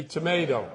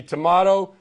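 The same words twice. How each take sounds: First: Tomato said as to-MAY-do, long ay vowel; tomato with the middle vowel as in "day". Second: Tomato said as to-MAH-to, broad ah vowel; tomato with the middle vowel as in "father". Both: Shown as a demonstration. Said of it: "I want to start with a little ditty".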